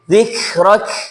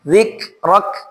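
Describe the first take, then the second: First: The final k is weak with flowing air. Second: The final k is strong and pressed. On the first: The speaker calls it wrong. "jangan sampai dibaca" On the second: The speaker calls it right. "dibaca dengan penekanan"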